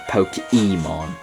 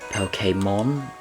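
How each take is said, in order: First: The vowel after the K is not 'ay'. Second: The vowel after the K sounds like 'ay'. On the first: The speaker calls it wrong. "not Pokemon" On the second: The speaker calls it right. "the E with the accent over it is pronounced as an A"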